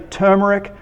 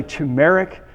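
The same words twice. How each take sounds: First: "turmeric" said TER-mer-ic, the speaker's own way; TER-mer-ic pronunciation. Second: "turmeric" said too-MERR-ic, the alternative way; too-MERR-ic pronunciation. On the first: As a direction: open "turmeric" with "ter", not "too". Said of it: "I say turmeric". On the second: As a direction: open "turmeric" with "too", then a clear "merr". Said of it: "You can also say". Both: Shown as a demonstration.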